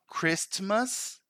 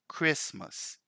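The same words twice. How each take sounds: First: A T sound is pronounced in the middle. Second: No T sound is pronounced in the middle. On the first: The speaker calls it wrong. "So it's not Christmas" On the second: The speaker calls it right. "We simply say Christmas"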